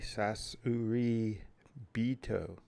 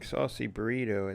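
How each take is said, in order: First: It is said with Japanese-style sounds, sasuri bito. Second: It sounds like the English words saucy burrito. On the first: The speaker calls it right. "it's actually sasuri bito" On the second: The speaker calls it wrong. "Instead of saying saucy burrito"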